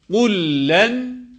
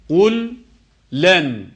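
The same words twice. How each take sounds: First: The two l sounds merge into one doubled l. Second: The two l sounds are pronounced separately. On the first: The speaker calls it right. "şeddeliymiş gibi okumamız gerekmektedir" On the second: The speaker calls it wrong. "ayrı ayrı değil"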